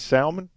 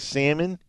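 First: It is said with a Southern pronunciation. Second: It is said with a Wisconsin pronunciation. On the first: This is how the speaker says it. "And I say salmon" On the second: This is how the speaker does not say it. "I don't say salmon. I'm not from Wisconsin"

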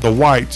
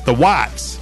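First: The name is said in a plain way. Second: The name is said with an imitated Southern pronunciation. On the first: The speaker calls it wrong. "it's not The Whites" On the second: The speaker calls it right. "if you hear [name] say it. It's The Whites"

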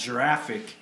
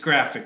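First: It begins with a soft j sound. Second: It begins with a hard g sound. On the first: The speaker calls it wrong. "the word is not graphic" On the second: The speaker calls it right. "it's graphic"

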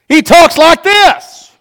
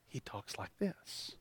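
First: It is said loudly. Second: It is said quietly.

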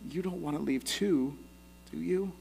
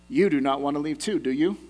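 First: It sounds warm and pained, full of heartbreak. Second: It sounds detached, like a teacher proving a point. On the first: The asker is hurt at the thought of losing friends. "relationally and with heartbreak" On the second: The asker wants to prove a point. "very teachery or academically"

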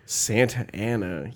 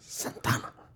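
First: The name is said as four separate syllables. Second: The name is merged into three syllables. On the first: The speaker calls it wrong. "You don't say Santa Ana" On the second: The speaker calls it right. "you say Santana"

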